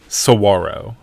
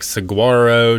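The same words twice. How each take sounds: First: The G sound is left silent in the word. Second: The G sound is pronounced in the word. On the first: The speaker calls it right. "but it is saguaro. ... you don't pronounce that G" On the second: The speaker calls it wrong. "we went from like saguaro to saguara to I don't know"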